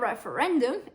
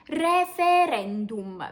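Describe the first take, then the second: First: It is pronounced the English way. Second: It is pronounced the Italian way, every letter sounded. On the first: The speaker calls it wrong. "It's not referendum" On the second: The speaker calls it right. "it's referendum, because in Italian we basically read every single letter"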